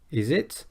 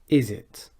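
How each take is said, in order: First: The pitch rises at the end. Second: The pitch falls at the end. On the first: It asks a real question. The speaker calls it wrong. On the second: It states shared knowledge the listener will agree with. The speaker calls it right. "then we go downwards in our intonation"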